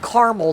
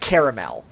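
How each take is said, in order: First: The middle vowel is dropped, giving two syllables. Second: The middle vowel is kept, giving three syllables. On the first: The speaker calls it wrong. "If they pronounce it caramel, they're wrong" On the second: The speaker calls it right. "It is caramel. There are two A's, and I'm not ignoring it"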